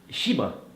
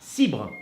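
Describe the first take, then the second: First: The name begins with an 'sh' sound. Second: The name begins with an 's' sound. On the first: The speaker calls it wrong. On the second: The speaker calls it right.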